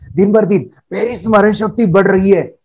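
It is said cheerfully, with a smile.

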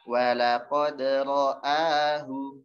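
Walaqad runs straight into ra'ahu. The speaker calls it right. "Tapi nyambung"

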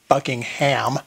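It is said the American way.

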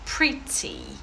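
The t is a clear, crisp t sound. "А якщо ви хочете британський варіант"

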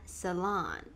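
The word is said with an American pronunciation. "cô sẽ phát âm theo kiểu American English"

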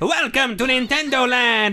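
It is said in a Luigi voice.

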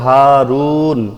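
The word ends on the consonant 'n'. The reading stops at this word. "যদি থামতাম তাহলে তো হারুন।"

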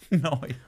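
The vowel sounds like 'oi'. "they say noi"

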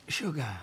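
It is said in a sultry, seductive tone. It is meant as flirting. "I would have said it more sexy"

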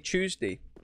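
It begins with a 'chew' sound, like chewing. "Like I'm chewing on the day"

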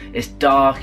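It is said in a low, defeated tone. The speaker feels unable to do anything. The speaker calls it wrong. "You can either think, oh"

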